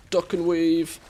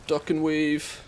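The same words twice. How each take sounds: The two takes are said the same way.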